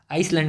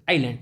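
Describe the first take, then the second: First: आइसलैंड said with a clear s in the middle; wrong pronunciation. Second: आइलैंड with a silent s, eye-land; correct pronunciation. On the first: Teacher warning students, आइसलैंड with a spoken s. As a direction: sound the s in आइसलैंड as the mistake. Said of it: "आइसलैंड नहीं पढ़ते". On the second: Teacher giving students the right reading, आइलैंड with silent s. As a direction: say आइलैंड without any s sound. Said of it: "आइलैंड पढ़ते हैं". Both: Shown as a demonstration.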